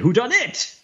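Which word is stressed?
it. The stress is on "it".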